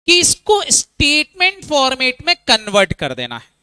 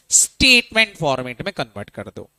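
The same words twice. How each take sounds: First: Higher and louder, stressing कि; teacher spelling out the rule; emphatic statement. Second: Said in the usual way. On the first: Shown as a demonstration. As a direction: set out "कि इसको statement format" firmly like a teacher. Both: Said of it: "फटाफट बोलो".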